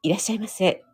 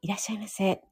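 First: It is said in a lower, composed voice. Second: It is said in a soft, enveloping voice.

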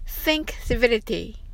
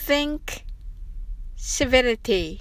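First: The phrase is said at a fast pace. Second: The phrase is said at a slow pace.

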